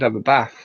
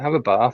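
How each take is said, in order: First: It is said in a northern English accent. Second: It is said in a Norfolk English accent. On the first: "somebody up north would have a bath" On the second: "I'm talking with a Norfolk accent"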